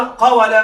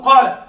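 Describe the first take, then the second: First: قول said as "qawala", with a sounded w; قول with the waw voweled, not turned into a long a; unchanged root form. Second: Said in the usual way. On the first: Shown as a demonstration. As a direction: say قول in three syllables, qa-wa-la. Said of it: "هذه غير فصيحة". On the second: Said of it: "هذه فصيحة".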